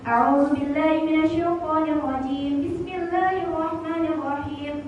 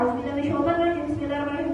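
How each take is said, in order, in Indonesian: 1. Dibacanya pelan, setiap kata dipanjangkan. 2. Dibacanya cepat, kata-katanya disambung-sambung. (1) "pelan, dihayati"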